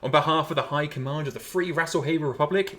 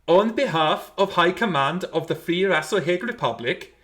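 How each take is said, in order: First: It is read in a plain, ordinary voice. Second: It is read in a grand, glorious voice.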